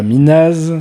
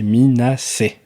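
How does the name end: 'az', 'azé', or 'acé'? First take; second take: az; acé. First: It ends on a z sound, no final vowel. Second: It ends with an s sound then 'é'. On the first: The speaker calls it wrong. "C'est pas Minaz" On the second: The speaker calls it right. "c'est Minacé"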